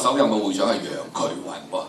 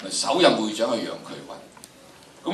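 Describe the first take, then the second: First: Said in the usual way. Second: Slow, weighing each word of 首任會長係楊衢雲; teacher stressing the key fact; slow emphatic restatement. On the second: Shown as a demonstration. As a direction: spell out 首任會長係楊衢雲 slowly, leaning on 任.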